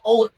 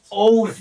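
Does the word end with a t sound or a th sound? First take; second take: t sound; th sound. First: The final th sound is not pronounced. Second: The final th sound is clearly pronounced. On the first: The speaker calls it wrong. "Hindi oath" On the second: The speaker calls it right. "kailangan ma-pronounce yung H"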